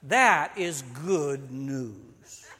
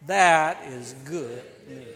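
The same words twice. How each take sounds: First: Very slow, drawn out; slow, weighty declaration; slow proclamation. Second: Slow, louder call. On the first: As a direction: savor each word of That is good news. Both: Shown as a demonstration. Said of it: "Would you say with me".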